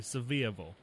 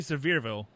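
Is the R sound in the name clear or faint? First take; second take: faint; clear. First: The R sound in the name is faint. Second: The R sound in the name is clear. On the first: This is how locals say the name. The speaker calls it right. "You have to say it like that. You have to say Sevierville" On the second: This marks the speaker as an outsider. The speaker calls it wrong. "because you can't say Sevierville"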